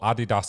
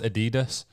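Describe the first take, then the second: First: It is said in a non-American way. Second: It is said the American way.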